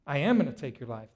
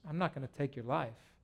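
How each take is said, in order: First: "am" stressed, said fast. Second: "not" stressed, quiet and low. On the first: Pastor voicing God to Saul, stress on am. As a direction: lean on "am" in "I am gonna take your life". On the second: Pastor voicing God to Saul, stress on not. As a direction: lean on "not" in "I'm not gonna take your life". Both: Acted.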